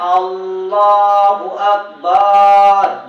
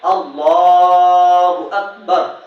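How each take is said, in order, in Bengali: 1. আকবার শব্দে একটি স্বরধ্বনি লম্বা করে টানা হয়। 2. আকবার শব্দের স্বরধ্বনিগুলো ছোট রাখা হয়। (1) "এরকম ভাবে যদি কেউ বলে" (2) "শুদ্ধ ভাবে পড়তে হবে"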